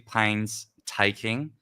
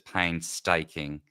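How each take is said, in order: First: The word is divided as pains-taking. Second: The word is divided as pain-staking. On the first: "It's actually painstaking, as it would make sense to be" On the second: "it's been re-bracketed as painstaking"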